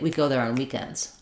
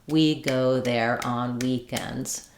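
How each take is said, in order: First: It is fast, with quick unstressed words. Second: Every syllable gets an equal, even beat. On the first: "I don't have to do it that quickly" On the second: "if I use a stress uh, syllable timed rhythm"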